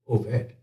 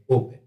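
First: The middle consonant is a V sound. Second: The middle consonant is a B sound. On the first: The speaker calls it right. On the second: The speaker calls it wrong.

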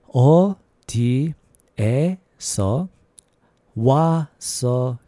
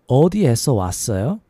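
First: It is said at a normal, careful pace. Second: It is said at a quicker pace.

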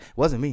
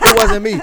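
First: It is said at a normal, quieter volume. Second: It is said very loudly.

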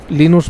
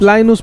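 First: It is said with a Spanish accent. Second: It is said with an American accent.

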